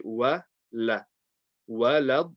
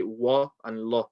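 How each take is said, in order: First: "wa la" with thin, front, open vowels; correct, light syllables. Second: "wa" and "la" with dark, rounded vowels; wrong, heavy syllables. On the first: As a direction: keep both "wa" and "la" light. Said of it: "The waw will be light". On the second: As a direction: say "wa" and "la" thick, like "waw" and "law". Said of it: "They say wa and la". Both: Shown as a demonstration.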